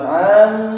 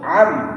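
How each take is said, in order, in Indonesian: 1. Vokalnya dipanjangkan. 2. Vokalnya pendek dan terpotong. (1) "jangan dibaca panjang, bukan am" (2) "langsung am"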